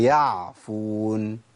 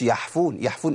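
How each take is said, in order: First: "يعفون" بعين واضحة ممدودة ببطء; clear slow ain. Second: "يحفون" بحاء مهموسة بدل العين; ain turned to ha. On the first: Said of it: "هي". (العين الصحيحة ببطء) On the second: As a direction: breathe ha in place of ain in يعفون. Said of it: "ما قلتش". (عين مقلوبة حاء) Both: Shown as a demonstration.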